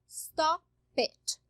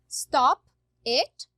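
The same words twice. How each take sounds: First: The p runs straight into it. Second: The two words are said separately.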